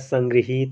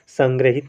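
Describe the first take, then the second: First: The second syllable is 'gri' with a long 'hee'. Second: The second syllable is 'gra' with a short 'hi'. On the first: The speaker calls it right. "गा पर री की मात्रा रहेगी, और हा पर बड़ी की मात्रा रहेगी" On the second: The speaker calls it wrong. "संग्रहित नहीं होता है"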